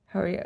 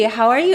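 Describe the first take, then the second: First: The voice is flat with unchanging pitch. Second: The voice is lively with changing pitch. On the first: The speaker shows no feeling. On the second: The speaker greets with normal warmth.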